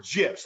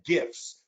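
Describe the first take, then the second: First: "gifs" with a soft g, like j. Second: "gifs" with a hard g. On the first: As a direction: say "gifs" as jifs. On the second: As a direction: say "gifs" with g as in gift. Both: Shown as a demonstration. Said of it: "I don't know how you pronounce it".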